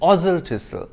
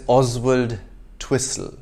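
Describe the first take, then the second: First: The name is said with the W dropped. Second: The name is said as spelled, W included. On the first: The speaker calls it right. "Except it's" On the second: The speaker calls it wrong. "there's Oswald Twistle"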